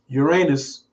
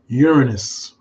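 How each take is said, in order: First: It sounds like the phrase 'your anus'. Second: It does not sound like 'your anus'. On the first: It sounds like a rude body reference. The speaker calls it wrong. "I don't say Uranus because I don't like talking about people's anus" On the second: It avoids the rude body reference. The speaker calls it right. "So we just pronounce it Uranus"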